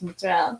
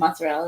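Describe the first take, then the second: First: It is said in the grandma's Italian style. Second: It is said with a plain American accent.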